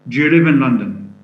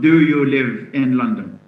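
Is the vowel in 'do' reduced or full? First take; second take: reduced; full. First: The word 'do' is reduced, with no full vowel. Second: The word 'do' has a full, stressed vowel. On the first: The speaker calls it right. "do has just one one sound, which is dot. Then it's followed by ya" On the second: The speaker calls it wrong. "It's not"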